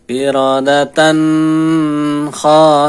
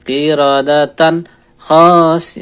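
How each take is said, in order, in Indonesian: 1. Bunyi n ditahan terlalu lama. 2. Bunyi n terputus tiba-tiba. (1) "ini terlalu lama" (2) "Contoh bacaan yang kurang tepat terkait tanwin atau nun sukun ketika dia dimatikan total"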